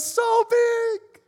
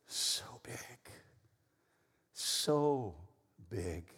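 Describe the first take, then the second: First: Put-on squeaky-high, loud child's shout; excited toddler. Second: Soft, spaced-out, reverent words; hushed awe. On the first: Toddler answering how much Mommy loves him, excited squeal. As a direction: squeal it out like a thrilled little kid. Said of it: "And he goes". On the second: Real, not acted. Preacher telling church how big God's love is, hushed awe. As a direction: let each word drop softly, with long pauses. Preacher turns game phrase to God.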